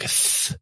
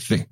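First: The th sound is big and drawn out. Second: The th sound is short and quick. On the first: "like a big th" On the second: "more of a quick, like th"

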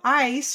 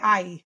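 First: The word ends with its final consonant sound. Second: The word ends without its final consonant sound. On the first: The speaker calls it right. "instead of ice" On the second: The speaker calls it wrong. "She omits the final sound rather than substitute it"

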